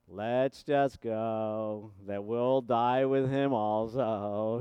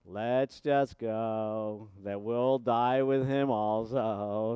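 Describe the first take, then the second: First: It is said in a gloomy Eeyore voice. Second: It is said in a gloomy Eeyore voice.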